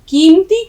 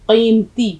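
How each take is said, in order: First: It starts with a plain front k sound. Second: It starts with a deep throaty q sound. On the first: The speaker calls it wrong. "कीमती कोई लफ्ज नहीं होता।" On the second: The speaker calls it right. "हलक से यहां से निकालेंगे। कीमती काफ।"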